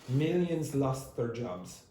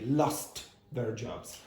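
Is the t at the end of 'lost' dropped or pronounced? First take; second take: dropped; pronounced. First: The t at the end of 'lost' is dropped. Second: The t at the end of 'lost' is clearly pronounced. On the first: "It's very common for T's to disappear ... So it's not wrong to say" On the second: "You don't have to say"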